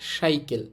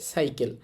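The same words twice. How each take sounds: First: The first sound is an sh sound. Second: The first sound is a plain s sound. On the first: The speaker calls it wrong. "কেউ কিন্তু বলবে না সাইকেল" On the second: The speaker calls it right. "সবাই এই শব্দটাকে বলবে সাইকেল"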